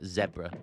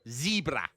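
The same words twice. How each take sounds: First: It is said in a British accent. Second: It is said in an American accent.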